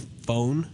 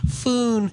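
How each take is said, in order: First: The vowel sounds like 'oh'. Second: The vowel sounds like 'oo'. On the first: The speaker calls it right. "some of them don't say phone" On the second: The speaker calls it wrong. "They say foon"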